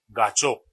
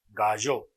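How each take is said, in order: First: The middle consonant is a plain ch sound. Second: The middle consonant blends a ch and y sound. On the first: This is the form adapted to Spanish. "Y ese sonido lo hemos convertido en che" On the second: This is the international form of the word. "Es una mezcla de che y de ye"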